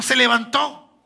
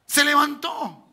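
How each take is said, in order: First: Said in the usual way. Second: "Se levantó" slowed right down, each syllable weighed; slow, weighty "Se levantó"; slow emphatic repeat. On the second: Shown as a demonstration. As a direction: repeat it slowly so it lands.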